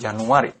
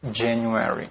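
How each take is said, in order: First: It has a soft j, Indonesian style. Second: It has a strong popped j, English style. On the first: The speaker calls it wrong. "bukan Januari" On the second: The speaker calls it right. "misalnya January"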